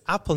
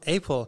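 First: It is said with a native English pronunciation. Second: It is said with a Russian-style pronunciation. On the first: The speaker calls it right. "I found out this is Apple" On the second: The speaker calls it wrong. "not Apple, because in Russian we learn it's Apple"

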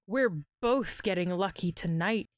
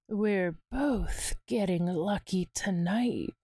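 First: It is read in a plain, neutral tone. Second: It is read in a soft, seductive tone. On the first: The speaker calls it wrong. "Wait, nope" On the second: The speaker calls it right. "the tone of his voice, it's seductively promising"

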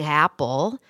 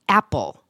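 First: The word starts smoothly with open airflow. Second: The word starts with a closed-throat catch. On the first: The speaker calls it right. "just opening your mouth and letting air come through your throat" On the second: The speaker calls it wrong. "where I close my throat and almost start an A as a consonant"

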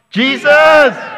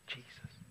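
First: The word is shouted loudly. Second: The word is whispered very quietly. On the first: "Shout it"

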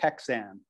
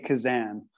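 First: It is read as spelled, with a 'ks' sound. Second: It is said with a soft 'z' sound. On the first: This is how the spelling looks. The speaker calls it wrong. "it looks like Kexan" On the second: This is how the owner says the name. The speaker calls it right. "but I say Kazan"

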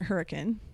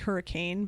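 First: It is pronounced the way locals say it. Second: It is pronounced the general, spelled-out way. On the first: This is how residents say the name. "but we pronounce it Hurricane" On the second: This is how the name is written. "it's actually Hurricane"

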